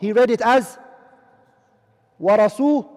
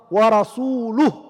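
First: The second-to-last syllable has an 'i' vowel. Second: The second-to-last syllable has a 'u' vowel. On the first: God is free from the Messenger as well. The speaker calls it wrong. "He placed a kasra there" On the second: God and the Messenger are both free from them. The speaker calls it right. "Let's read it with the dhamma"

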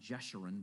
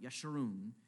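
First: The name begins with a J sound. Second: The name begins with a Y sound. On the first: The speaker calls it wrong. "not Jeshurun" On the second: The speaker calls it right. "that's actually how you pronounce it"

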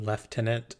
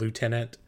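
First: The word is said in a British pronunciation. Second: The word is said in an American pronunciation. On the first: "why they pronounce it lieutenant" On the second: "instead of lieutenant"

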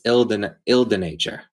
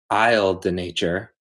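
First: The first word sounds like 'eel'. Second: The first word sounds like 'aisle'. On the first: The speaker calls it right. "it's ill de nature. ... the S is silent" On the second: The speaker calls it wrong. "I've been saying it wrong"

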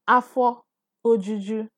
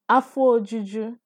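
First: The vowel before 'juju' is fully pronounced. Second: The vowel before 'juju' is dropped and merged. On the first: The speaker calls it wrong. "You're not going to say Afo Ojuju. Nobody talks like that" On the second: The speaker calls it right. "So you say it together"

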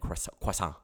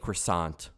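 First: It is said with a put-on French accent. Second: It is said with a plain English accent. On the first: "than croissant" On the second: "I would rather say croissant"

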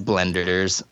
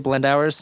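First: The name ends in a short 'ders' sound. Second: The name ends in an 'hours' sound. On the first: The speaker calls it right. "It's Blenders" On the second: The speaker calls it wrong. "I hear people say Blend Hours so much"

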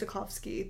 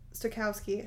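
First: The w is said as a v sound. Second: The w is said as a w sound. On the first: The speaker calls it wrong. "I always want to like pronounce the W as a V" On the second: The speaker calls it right. "I think that's how you say it"

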